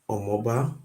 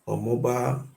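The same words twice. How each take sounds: Both takes have the same delivery.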